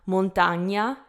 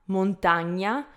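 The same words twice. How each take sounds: No difference in how they are said.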